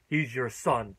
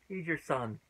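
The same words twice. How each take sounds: First: It is said dramatically, like a big shock. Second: It is said casually, like a plain statement.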